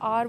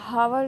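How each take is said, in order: First: The word begins with a vowel sound. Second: The word begins with an h sound. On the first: The speaker calls it right. "आर बोलते हैं" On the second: The speaker calls it wrong. "हावर नहीं बोला जाता"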